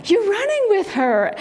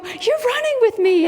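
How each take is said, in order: First: High, lilting imitation of a dad; lightly acted dad, pitched up; dad to toddler. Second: Put-on very high, gushing kid-directed voice; retold delight, pitched way up for a small child; delighted talk to toddler. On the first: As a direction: playfully voice a dad talking to his little boy. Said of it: "his dad's behind him trying to keep up". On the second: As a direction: marvel at a little kid. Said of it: "And I go".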